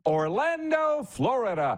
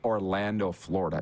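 First: The place name is said with a big, showy flourish. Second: The place name is said in a plain, flat way. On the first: The speaker calls it right. "You say" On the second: The speaker calls it wrong. "You don't say"

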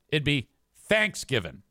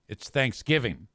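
First: The stress is on the first syllable. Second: The stress is on the second syllable. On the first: The speaker calls it wrong. "It's the fact that you're emphasizing thanks" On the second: The speaker calls it right. "The emphasis is on the second syllable"

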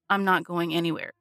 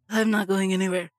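First: The words are spoken clearly and normally. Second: The words are slurred like a drunk person.

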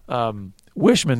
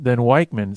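First: The middle consonant is a soft 'sh' sound. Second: The middle consonant is a hard 'k'-like sound. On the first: The speaker calls it right. "that sounds way better" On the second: The speaker calls it wrong. "I'm always thinking that that CH should be a hard CH"

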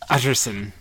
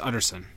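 First: The last syllable sounds like 'sin'. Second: The last syllable sounds like 'son'. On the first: The speaker calls it wrong. "you can mispronounce it. As Utterson. Like, utter, complete sin" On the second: The speaker calls it right. "But it's Utterson"

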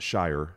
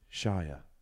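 First: The final R sound is clearly pronounced. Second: The final R sound is dropped. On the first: The speaker calls it wrong. "When I put the emphasis on the R" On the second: The speaker calls it right. "if you're British"

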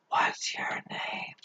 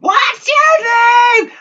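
First: It is said at a normal, quiet volume. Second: It is screamed at full volume.

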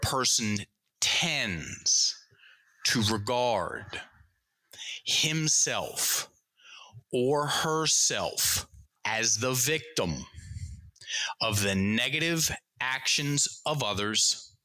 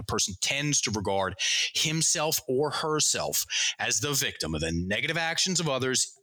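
First: It is read at a normal pace. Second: It is read at a fast pace.

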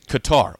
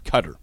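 First: The word does not sound like 'cutter'. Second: The word sounds like 'cutter'. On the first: The speaker calls it wrong. "My brain says Qatar" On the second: The speaker calls it right. "C-U-T-T-E-R for Q-A-T-A-R is how you pronounce it"

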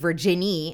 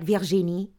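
First: The name is said with a plain English accent. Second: The name is said with a French accent. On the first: "Instead of just saying Virginie" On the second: "my pronunciation of things when it's in French changes completely"

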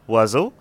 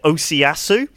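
First: It is said as two syllables, like 'wazoh'. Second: It is said as four syllables, like 'oh-see-ah-soo'. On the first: The speaker calls it right. "it is something along the lines of oiseau" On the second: The speaker calls it wrong. "decided to pronounce it Osiasu"

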